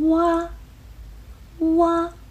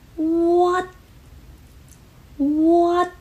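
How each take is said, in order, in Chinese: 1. 这个字结尾是开放的，没有截住。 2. 这个字结尾是突然截住的。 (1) "如果没有这个动作，就变成了哇哇，这是一个开放式的结束" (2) "结束的时候也是需要我们把气流截住"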